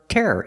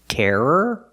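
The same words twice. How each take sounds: First: The word is said at a faster pace. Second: The word is said at a slower pace.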